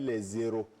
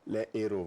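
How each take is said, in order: First: A z sound links les to the next word. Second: No z sound links les to the next word. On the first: The speaker calls it wrong. "je ne peux pas dire les zéros" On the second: The speaker calls it right. "voilà"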